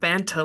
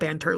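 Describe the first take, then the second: First: It is said in an attempted British accent. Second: It is said in an American accent. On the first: "I can't do a British accent" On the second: "in the most American way"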